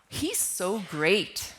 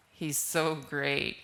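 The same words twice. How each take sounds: First: Genuinely admiring, slow and even; mean it as real praise; sincere praise. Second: Sarcastic, lower and slow. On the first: Teacher demonstrating tone, sincerely admiring. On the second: Teacher demonstrating tone, heavy sarcasm. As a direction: drip sarcasm on so great. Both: Shown as a demonstration. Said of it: "with a different tone of voice".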